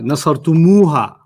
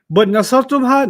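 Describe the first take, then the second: First: An extra u vowel comes before ha. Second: No vowel comes between the m and ha. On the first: The speaker calls it right. "we're gonna add a u on it, and then add a ha" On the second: The speaker calls it wrong. "nasartumha, no"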